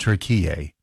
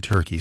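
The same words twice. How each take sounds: First: "Turkey" said as tur-KEE-yay, three syllables; native pronunciation. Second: "Turkey" as TUR-kee, like the bird; usual English pronunciation. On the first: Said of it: "it's always been pronounced". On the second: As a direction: say "Turkey" in two syllables, stress first. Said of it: "And we pronounce it". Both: Shown as a demonstration.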